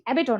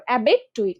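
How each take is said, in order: First: অ্যাবেটর run together, ending in -tor without the i; everyday pronunciation to avoid. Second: অ্যাবেট টইট in two chunks, the "oi" in টইট sounded; spelling pronunciation. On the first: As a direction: say অ্যাবেটর as one word, dropping the i. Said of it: "অ্যাবেটর না". (অ্যাবেটর একটানে, ই বাদ দিয়ে) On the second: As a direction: say অ্যাবেট, then টইট with its i heard. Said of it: "উচ্চারণটা ওইভাবে করো". (বানান অনুযায়ী অ্যাবেট টইট, টইটে ই স্পষ্ট) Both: Shown as a demonstration.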